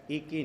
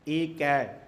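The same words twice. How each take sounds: First: ਏਕੇ ending in a closed e sound; wrong closed vowel. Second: ਏਕੈ ending in an open ai sound; louder ਏਕੈ, final vowel opened to ai. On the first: Preacher cautions against the misreading, ਏਕੇ with final e. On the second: Preacher shows the correct reading, ਏਕੈ with final ai. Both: Shown as a demonstration. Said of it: "ਏਕੇ ਨਹੀਂ ਪੜ੍ਹਨਾ".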